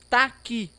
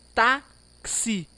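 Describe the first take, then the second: First: The x is sounded as a plain k. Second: The x is sounded as k plus s. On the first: The speaker calls it wrong. "só com o K" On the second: The speaker calls it right. "mas K-S"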